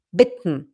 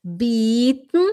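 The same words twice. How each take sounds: First: "bitten" with a short, lax i, lower and falling. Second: "Bitten" as bieten, long drawn-out ee, rising. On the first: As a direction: clip the vowel in "bitten" short. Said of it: "O bitten é pedir". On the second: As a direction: stretch the vowel in "Bitten" into a long ee. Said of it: "o bitten é oferecer". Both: Shown as a demonstration.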